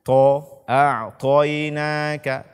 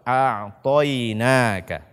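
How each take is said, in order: First: The t sound is thin with a puff of breath. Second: The t sound is strong and thick. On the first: The speaker calls it wrong. "membaca huruf to dengan tipis atau membacanya dengan hamas" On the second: The speaker calls it right. "bacalah dia dengan kuat, dengan tebal"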